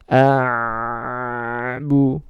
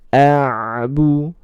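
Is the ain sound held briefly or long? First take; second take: long; briefly. First: The ain sound is held for a long time. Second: The ain sound is held only briefly. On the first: The speaker calls it wrong. "ini terlalu lama ya" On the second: The speaker calls it right. "Jadi sedikit saja dialirkan"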